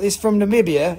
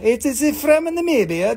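First: Said in the usual way. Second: "It is from Namibia" with "is" leaned on, higher; firm correcting stress. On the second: Shown as a demonstration. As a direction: insist on "is".

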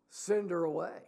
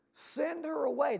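First: Said in the usual way. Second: High-pitched mock plea from the disciples; mock urging. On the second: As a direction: act out an urgent demand, pitched way up. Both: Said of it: "they urge Jesus to do what?".

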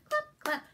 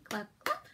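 First: High squeaky clap. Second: Low growly clap. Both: Shown as a demonstration. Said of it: "do all three".

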